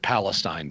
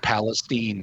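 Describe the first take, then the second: First: The name is said with the outsider pronunciation. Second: The name is said with the local pronunciation. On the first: This is how people from elsewhere say it. "instead of" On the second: This is how the people who live there say it. "how the locals pronounce it"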